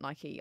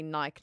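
First: The word is two syllables and ends with an 'ee' sound. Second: The word is one syllable and rhymes with 'bike'. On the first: This is how the speaker says it. "not Nike" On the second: This is how people in England say it. "In England, they say Nike"

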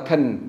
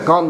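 First: The syllable has a weak, reduced vowel. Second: The syllable has a full, open vowel. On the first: The speaker calls it right. "mà là can" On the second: The speaker calls it wrong. "Không phải con"

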